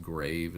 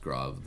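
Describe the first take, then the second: First: Grave rhyming with "wave"; English-style pronunciation. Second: Grave with an open AH vowel, "grahv"; French-style pronunciation. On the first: Teacher contrasting spelling with sound, grave said as "grayv". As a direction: say grave with a long AY vowel, "grayv". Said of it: "it's actually pronounced grave". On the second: Teacher naming the Greek accent, grave said as "grahv". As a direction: say grave as "grahv", rhyming with "suave". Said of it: "but it's pronounced grave". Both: Shown as a demonstration.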